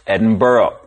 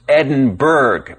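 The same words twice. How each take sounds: First: The name is said differently from its spelling. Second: The name is said just as it is spelled. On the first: The speaker calls it right. "but it's actually pronounced" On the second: The speaker calls it wrong. "it looks like it should be pronounced"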